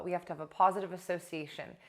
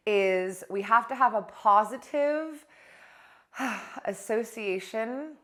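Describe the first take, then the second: First: "We have to have a positive association" rattled off fast and light; quick recap. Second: Each word drawn out and weighted, "positive" and "association" stretched slowly; a teacher slowing down so the point sinks in; slow and deliberate. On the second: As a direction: lay out "we have to have a positive association" slowly, leaning on every word. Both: Shown as a demonstration.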